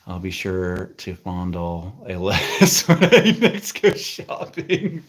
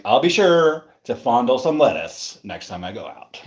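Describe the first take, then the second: First: Slow start breaking into laughter; real giggles overtaking the words; reading through laughter. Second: Imitated dry sarcasm, lingering on sure; lightly sarcastic quote; mock sarcastic. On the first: Real, not acted. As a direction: crack up while reading it aloud. Reads a comment, cracking up. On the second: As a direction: read it back with a touch of sarcasm. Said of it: "you said it kinda sarcastically".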